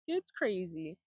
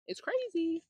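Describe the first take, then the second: First: Said in the usual way. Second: High, amazed exclamation; exclaiming, high. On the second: Real, not acted. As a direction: exclaim it in disbelief. Exclaiming about text costs.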